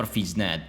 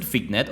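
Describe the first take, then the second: First: "Fignet" with a zh sound, FEEZH-net; soft G pronunciation. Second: "Fignet" with a hard g, FIG-net; hard G pronunciation. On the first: Reader offers the alternative, "Fignet" said as FEEZH-net. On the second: Reader tries out a pronunciation, "Fignet" with hard g. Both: Shown as a demonstration. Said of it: "I don't know how to pronounce it".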